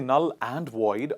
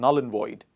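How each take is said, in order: First: The phrase is said with strong emphasis. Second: The phrase is said plainly without emphasis. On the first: The speaker wants to stress the point. "We don't say null and void unless you want to stress on it" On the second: It is the ordinary everyday way. "Normally we say null and void"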